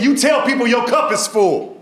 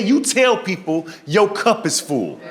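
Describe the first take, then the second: First: High, emphatic mimicked advice; advising doctor. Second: Slow, spaced-out doctor's advice; deliberate repeat. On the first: Doctor advising panicked patient, high and emphatic. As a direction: pitch the advice high and firm. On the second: Retold or imitated. Doctor repeating advice to confused patient, slow and deliberate. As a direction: spell it out slowly, higher than normal.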